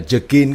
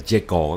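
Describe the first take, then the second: First: The name is pronounced in a non-English way. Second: The name is pronounced the English way. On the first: The speaker calls it wrong. "lúc đầu mình đọc là Jekyll" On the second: The speaker calls it right. "tiếng Anh đọc là Jekyll"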